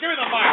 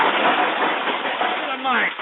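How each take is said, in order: First: Said in the usual way. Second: "Give me the mic." stretched very slowly; "Give me the mic." said at a crawl; drawn out. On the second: Real, not acted. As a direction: drag every word of "Give me the mic." out. Host repeats demand, drawn out.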